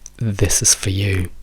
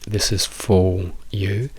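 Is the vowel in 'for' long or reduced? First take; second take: reduced; long. First: The vowel in 'for' is reduced to schwa. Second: The vowel in 'for' is long and full. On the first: The speaker calls it right. "diventa semplicemente una schwa" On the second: The speaker calls it wrong. "questa O lunga"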